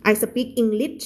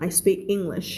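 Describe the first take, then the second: First: "I speak English" with an extra vowel in speak and English ending in t; mispronounced English. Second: "I speak English" with a clean sp and final sh; correct pronunciation. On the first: Teacher models what students should avoid, mispronounced English. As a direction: say "I sa-peak Englit", no final sh. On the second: Teacher models the right way for students, correct English. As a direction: say speak as one syllable, English ending in sh. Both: Shown as a demonstration. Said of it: "ไม่เอา".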